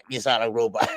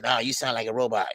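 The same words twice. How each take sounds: First: Laughing through the quote. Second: Said in the usual way. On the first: Retold or imitated. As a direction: chuckle while repeating it. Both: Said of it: "he said".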